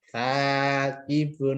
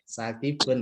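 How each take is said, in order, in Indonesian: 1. Vokal pertama dibaca panjang. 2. Vokal pertama pendek. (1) "Tapi kalau ada alifnya jadi panjang" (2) "kalau tidak ada alifnya ya pendek"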